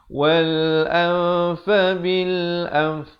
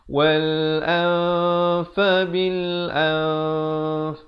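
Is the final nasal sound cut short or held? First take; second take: cut short; held. First: The final nasal sound is cut short. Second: The final nasal sound is held for two counts. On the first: The speaker calls it wrong. "jangan waqaf dengan ini yang salah eh" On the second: The speaker calls it right. "dengan sekurang-kurangnya dua harakat"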